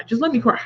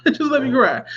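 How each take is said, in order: First: Said in the usual way. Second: Laughing through the repeat, a bit higher. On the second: Real, not acted. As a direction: laugh as you say it again.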